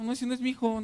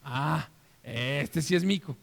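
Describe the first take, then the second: First: A touch of indignant refusal, mildly raised; lightly acted no, not my son; rejecting father. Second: Slow, tender recognition; recognizing father. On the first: Father in the skit refusing the wrong child, mildly indignant. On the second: Acted. Father in the skit welcoming his real son, slow and tender. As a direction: sigh it out, finally relieved and pleased.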